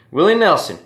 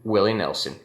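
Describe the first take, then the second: First: Much higher and louder, a hammed-up twang on the name. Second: Said in the usual way. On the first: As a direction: belt the name out like the country singer. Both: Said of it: "gives me an opportunity to talk like this".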